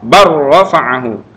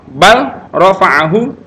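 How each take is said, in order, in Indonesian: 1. L melebur ke dalam bunyi R yang ditahan. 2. Bunyi L terdengar sebelum R.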